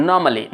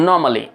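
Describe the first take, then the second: Both takes have the same delivery.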